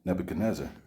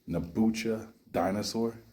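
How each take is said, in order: First: The name ends sounding like 'nezzar'. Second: The name ends sounding like 'dinosaur'. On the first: "how the King James version does it" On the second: "Have you ever heard his name pronounced Nabucha dinosaur?"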